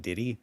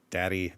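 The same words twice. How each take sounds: First: "Diddy" with the a turned to a short i, tih-dee; "Diddy" with a slight lift at the end; vowel shifted to i. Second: Said in the usual way. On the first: Shown as a demonstration. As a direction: say "Diddy" as the cousins' way of saying Daddy. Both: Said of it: "but it sounds like".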